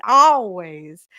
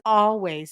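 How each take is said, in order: First: Put-on louder, stretched Minnesota-accent always; a fond Minnesota accent mimic. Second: Said in the usual way. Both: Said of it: "It's that hot Minnesota accent".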